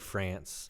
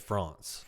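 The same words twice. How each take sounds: First: It is said in an American accent. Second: It is said in a non-American accent. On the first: "we say France" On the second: "most of the rest of the world says France"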